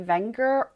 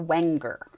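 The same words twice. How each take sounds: First: The name is given a German pronunciation. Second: The name is given an American pronunciation. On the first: "the German way" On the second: "the Americanized way"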